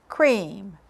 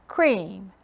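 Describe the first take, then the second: No difference in how they are said.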